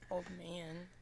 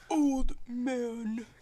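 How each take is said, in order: First: It is said quietly. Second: It is said loudly.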